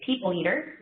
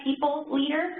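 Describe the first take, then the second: First: "people leader" run together like "people eater"; words run together. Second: PEOPLE and LEADER slow and separate; said slowly. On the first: Shown as a demonstration. Presenter showing how the job title gets misheard, words run together. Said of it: "or it sounds like I say". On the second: Real, not acted. Presenter taking care over a job title, slowly. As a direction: say "people leader" slowly, keeping the two words apart. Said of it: "I have to say that slowly".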